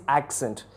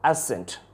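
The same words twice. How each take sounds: First: Accent with a k sound, AK-sent; accent with both c's sounded, k then s; British pronunciation. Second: Accent without the k sound, ASS-ent; accent with only an s sound for the double c; American pronunciation. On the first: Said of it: "The first one is". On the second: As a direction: say accent as "assent". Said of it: "And the next one is". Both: Shown as a demonstration.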